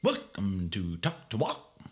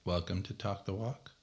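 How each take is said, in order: First: Slow, spaced-out show welcome; drawn-out intro. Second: Softer, understated show welcome; low-key intro. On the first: Host showing one of many ways to open the show, drawn-out. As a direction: stretch out "Welcome to Talk the Walk", word by word, rising on "Walk". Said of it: "so many thousands of ways you could say". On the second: Host trying another way to open the show, low-key. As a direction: say "Welcome to Talk the Walk" quietly, lifting on "Walk". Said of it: "I already got three out of the way". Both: Shown as a demonstration.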